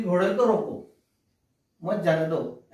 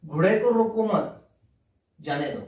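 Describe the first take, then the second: First: घोड़े को रोको, break, मत जाने दो falling; pause after रोको. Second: घोड़े को रोको मत raised, break, जाने दो dropped; pause after मत. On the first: Teacher repeating the first sentence, pause after रोको. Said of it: "इस वाक्य में ऐसा है". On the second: Teacher showing how meaning changes, pause after मत. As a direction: run रोको मत together, then let जाने दो fall. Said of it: "विराम चिन्ह का स्थान". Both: Shown as a demonstration.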